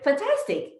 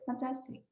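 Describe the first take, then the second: First: The word is said brightly with high energy. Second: The word is said flatly with low energy. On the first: The speaker feels fantastic. The speaker calls it right. "No, I'll say fantastic" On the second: The speaker does not feel fantastic. The speaker calls it wrong. "do you think I'm gonna feel like this?"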